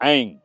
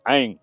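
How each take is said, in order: No difference in how they are said.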